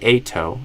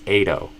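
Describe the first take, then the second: First: The T is a full, crisp T sound. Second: The T is a quick flap sound. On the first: "I could say ato as an option" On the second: "I will usually do a flap T there"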